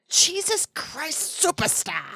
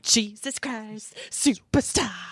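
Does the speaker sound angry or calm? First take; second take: angry; calm. First: It is said in an angry, exasperated way. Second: It is said in a calm, plain way.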